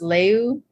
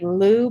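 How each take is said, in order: First: The name is said with a 'y' glide, 'lyoo'. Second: The name is said as a plain 'loo'. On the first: This is the supposedly proper pronunciation. The speaker calls it right. "I think it's supposed to be pronounced Leu" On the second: This is how the bearer of the name says it. The speaker calls it wrong. "I think he pronounces it like Lu"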